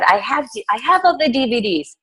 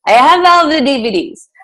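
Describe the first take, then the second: First: A light attempt at a German accent, higher; hint at a German accent, pitched up. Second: Hammed-up German accent, higher and louder. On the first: Coach quoting a German client who came to her, light German accent. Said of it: "She's German, so I'm saying". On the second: Coach imitating her German client for the team, exaggerated German accent. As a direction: put on a loud, unsure mock German accent. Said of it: "I don't know if that's a German accent".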